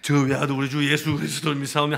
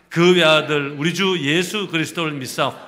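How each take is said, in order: First: It is said lazily, like yawning. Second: It is said boldly, as a proclamation.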